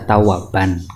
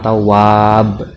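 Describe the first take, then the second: First: The word ends with an -an sound. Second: The word ends on a bare b consonant. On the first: The full tanwin ending is kept. "harusnya kan dibaca tawaban karena ada fathah ten" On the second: The word is stopped on as a pause. "jangan dibaca wakof... juga nggak boleh"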